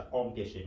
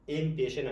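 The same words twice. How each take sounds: First: "آم پیشه" starting with an open AW, not EH; correct AW reading. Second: "ام پیشه" starting with a plain EH-M; wrong EM reading. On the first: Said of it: "آم پیشه میشه". («آم پیشه» با صدای آ، تلفظ درست) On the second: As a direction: say "ام" like the letter name M, then "پیشه". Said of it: "ام پیشه نمیشه". («ام پیشه» با صدای اِم، تلفظ نادرست) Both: Shown as a demonstration.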